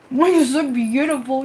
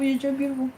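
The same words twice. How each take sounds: First: Higher, tender praise to the cat; doting praise. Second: Much softer, hushed murmur to the cat. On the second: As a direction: breathe it tenderly. Praising cat again softer. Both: Real, not acted.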